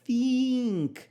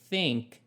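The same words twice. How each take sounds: First: The vowel sounds like a tense 'ee'. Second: The vowel sounds closer to an 'eh'. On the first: The speaker calls it wrong. "Não é think" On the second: The speaker calls it right. "é um som de E"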